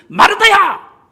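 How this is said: It is shouted loudly in a scolding tone.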